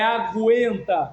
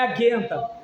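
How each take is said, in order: First: A u sound follows the g. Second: The g goes straight into the e. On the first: The speaker calls it right. "o som do G, o som do U e o som do E" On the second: The speaker calls it wrong. "não é aguenta"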